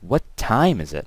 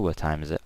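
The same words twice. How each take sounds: First: The word time is stressed. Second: The word time is not stressed.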